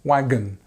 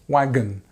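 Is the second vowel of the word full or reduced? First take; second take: reduced; reduced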